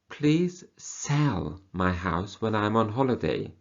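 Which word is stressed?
sell. The stress falls on the word sell. They want it sold, not bought. "So they don't want you to buy the house, they want you to sell the house"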